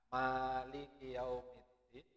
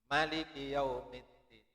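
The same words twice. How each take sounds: First: The first vowel of maliki is drawn out long. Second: The first vowel of maliki is kept short. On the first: "Ada yang dibaca panjang" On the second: "Ada yang dibaca pendek"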